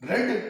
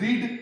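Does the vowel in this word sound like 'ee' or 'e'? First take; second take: e; ee. First: The vowel is a short 'e' sound. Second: The vowel is a long 'ee' sound. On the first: This is the past form. "इसके उच्चारण में थोड़ा सा अंतर है" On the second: This is the present form. "आप इसे बोलते हैं रीड"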